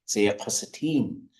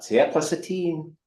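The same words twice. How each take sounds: First: The pitch does not go up and down. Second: The pitch goes up and then down. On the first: The speaker calls it right. "which should be" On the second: The speaker calls it wrong. "I'm just following that exact inflection into "tsiya plus a team." ... kind of this upward downward thing"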